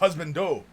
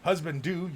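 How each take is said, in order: First: The last word has an oh vowel, like dough. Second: The last word has an oo vowel, like too. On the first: The speaker calls it right. "You pronounced the do like dough" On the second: The speaker calls it wrong. "not do"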